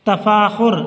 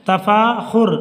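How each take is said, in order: The two takes are said the same way.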